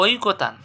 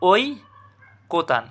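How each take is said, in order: First: Said in the usual way. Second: ঐকতান split as "oi... kotan"; correct pronunciation. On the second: Shown as a demonstration. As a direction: draw out "oi" in ঐকতান, long pause, then "kotan". (ঐকতান ভেঙে "ওই... কোতান" উচ্চারণ) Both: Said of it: "এটা সঠিক উচ্চারণ কী হবে?".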